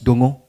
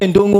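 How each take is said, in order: First: The name begins directly with a d sound. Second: The name begins with an n sound. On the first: The speaker calls it right. "it's Dongo" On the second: The speaker calls it wrong. "We say Ndongo, but there's no Ndongo"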